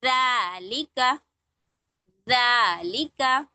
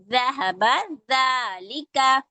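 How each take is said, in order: First: ज़ालिका read very slowly, syllable by syllable; slow recitation. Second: ज़हबा ज़ालिका drawn out slowly; slow recitation. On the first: Teacher slowly modelling a word for the class. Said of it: "पढ़ के देखिए". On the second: Teacher showing letters joined in words. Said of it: "हरूफ मिला के कलिमा कोई पढ़ते हैं". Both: Shown as a demonstration.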